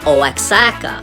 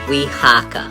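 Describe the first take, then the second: First: The start is read letter by letter, 'oh-ax'. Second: The start is said as one 'wa' sound. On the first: The speaker calls it wrong. "when it's spelled O A X, we might think it means says" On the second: The speaker calls it right. "the O A X is pronounced we"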